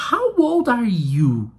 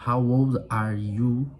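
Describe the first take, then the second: First: Put-on "How old are you" starting high on HOW and sliding down, slow; question intonation. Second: Put-on "How old are you" low, slow and level; without question intonation. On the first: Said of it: "Ó a entonação de pergunta". (entonação de pergunta bem marcada em "How old are you", aguda e lenta) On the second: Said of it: "fazer uma entonação sem ser de pergunta". (sem entonação de pergunta, "How old are you" grave, lento e uniforme) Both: Shown as a demonstration.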